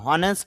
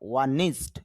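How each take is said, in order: First: The word begins with an h sound. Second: The word begins with a vowel sound. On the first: The speaker calls it wrong. "হনেস্ট হবে না" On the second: The speaker calls it right. "IPA তে হলো অ ন ই নি"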